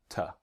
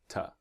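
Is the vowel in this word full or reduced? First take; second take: reduced; reduced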